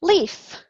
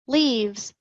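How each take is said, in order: First: Singular form named. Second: Said in the usual way. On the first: Shown as a demonstration. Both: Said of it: "do the same for leaves".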